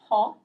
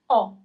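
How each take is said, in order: First: The word starts with an audible h sound. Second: The word starts directly with the vowel. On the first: The speaker calls it wrong. "It's not ho, doesn't exist" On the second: The speaker calls it right. "It's O"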